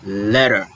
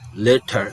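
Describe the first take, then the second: First: It is said with an American accent. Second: It is said with a British accent.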